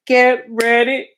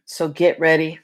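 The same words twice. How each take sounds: First: Sung, slow, higher sing-song stretch; silly singing. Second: Said in the usual way. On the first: Pretend. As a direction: croon it slowly and playfully. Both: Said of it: "I'm just being silly".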